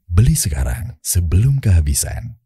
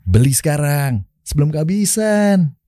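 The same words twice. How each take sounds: First: It is said in a calm, mature, confident tone. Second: It is said in a relaxed, casual, youthful tone. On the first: It advertises a product for mature adults. "iPhone ini mature lah ya" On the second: It advertises a product for young people. "buat mikrofon nih anak-anak muda kan"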